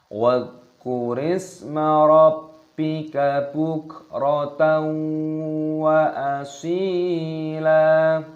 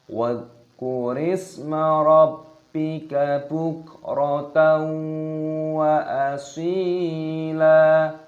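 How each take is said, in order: No difference in how they are said.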